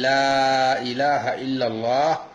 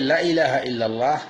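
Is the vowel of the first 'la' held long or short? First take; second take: long; short. First: The first vowel is drawn out long. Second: The first vowel is kept short. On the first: There is no true deity except God. The speaker calls it right. "এখানে প্রথমে লামে টানতে হবে" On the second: There certainly is a deity besides God. The speaker calls it wrong. "যদি এখানে লামে টান না দেওয়া হয় তাহলে অর্থ পুরোপুরি বদলে যাবে"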